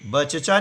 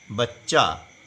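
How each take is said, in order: First: A vowel is sounded between the two ch sounds. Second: The two ch sounds join with no vowel between. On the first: The speaker calls it wrong. "बचचा नहीं बोलेंगे... वह गलत उच्चारण होता है" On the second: The speaker calls it right. "क्या बोलेंगे? बच्चा"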